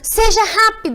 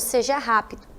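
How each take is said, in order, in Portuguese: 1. É dito em tom firme e autoritário. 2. É dito em tom neutro, sem emoção. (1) "vai ficar como?" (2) "Sem o sinal ficaria como?"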